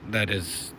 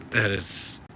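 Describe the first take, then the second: No difference in how they are said.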